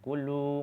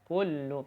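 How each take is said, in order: First: The final vowel is drawn out long. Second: The final vowel is cut short. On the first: The speaker calls it wrong. "jangan kullu, nggak boleh" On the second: The speaker calls it right. "harus kullu pendek"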